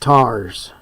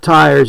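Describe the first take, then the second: First: It is said with the local Appalachian vowel. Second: It is said with a standard vowel. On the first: "it's tars" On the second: "it's not tires"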